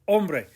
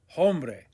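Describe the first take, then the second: First: The word begins with no h sound. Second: The word begins with an audible h sound. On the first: The speaker calls it right. "You don't hear the H" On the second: The speaker calls it wrong. "Don't say hombre"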